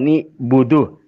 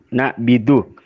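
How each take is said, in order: First: The first two syllables have 'i' then 'u'. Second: The first two syllables have 'a' then 'i'. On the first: "nun ibaca kasra" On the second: "abban ibaca kasra"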